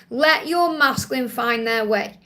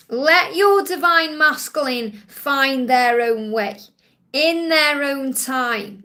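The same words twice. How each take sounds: First: Said in the usual way. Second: Slow, deliberate message. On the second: Acted. Slow emphatic channelled message.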